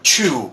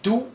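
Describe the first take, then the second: First: The t sounds like a ch sound. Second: The t is plain, without a puff of air. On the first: "or chu, which is even worse" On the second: "You don't say tu"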